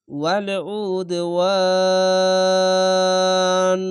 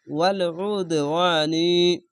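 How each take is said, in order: First: ওয়াল উদওয়ান with ওয়ান sustained very long on one note, closing on n; three-alif stretch at stop. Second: ওয়াল উদওয়ানি chanted slowly, the final নি voiced; continuing form. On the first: Teacher showing a stop with three-alif stretch, ওয়ান held very long. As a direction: chant slowly and stretch the last vowel of ওয়াল উদওয়ান. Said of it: "এরকমভাবে হবে". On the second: Teacher reciting the unstopped form, ওয়াল উদওয়ানি with moderate vowel stretches. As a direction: recite ওয়াল উদওয়ানি through to নি without a long hold. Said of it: "যদি ওয়াকফ করেন".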